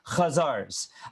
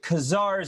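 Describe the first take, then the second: First: It begins with a raspy guttural throat sound. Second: It begins with a plain hard k sound. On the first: The speaker calls it right. "it is a guttural C H" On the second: The speaker calls it wrong. "is not the right pronunciation"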